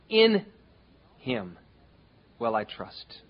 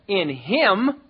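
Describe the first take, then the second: First: The stress is on the word In. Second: The stress is on the word Him.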